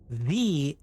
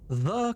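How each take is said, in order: First: It is said with a long 'thee' vowel. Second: It is said with a short 'thuh' vowel.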